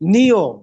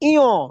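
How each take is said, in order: First: The word starts with an n sound. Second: The word starts directly with a vowel. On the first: The speaker calls it wrong. "আমরা বলতাম এটাকে নিয়" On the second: The speaker calls it right. "নিয় না, উচ্চারণ হবে ইয়"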